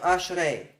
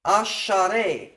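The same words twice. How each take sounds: First: Ashrei as ash-rei, sh running straight into r; no extra vowel. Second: Asharei slowly as a-sha-rei, A after the sh; extra vowel. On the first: Teacher giving the form being replaced, ashrei without extra vowel. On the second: Teacher contrasting Asharei with the shorter form, extra-vowel demonstration. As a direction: stretch Asharei into three firm beats, a-sha-rei. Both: Shown as a demonstration. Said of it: "instead of ashrei".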